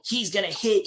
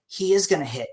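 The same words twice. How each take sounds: First: Said in the usual way. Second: IS stressed in full, uncontracted, as a rebuttal. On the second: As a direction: concede the point, leaning on "is". Counters fans by stressing is.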